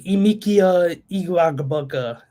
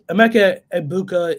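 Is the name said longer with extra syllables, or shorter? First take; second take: longer; shorter. First: The name is said with extra added syllables. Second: The name is said without extra added syllables. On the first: The speaker calls it wrong. "he just threw in extra extra syllables" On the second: The speaker calls it right. "is closer than what Gronk said"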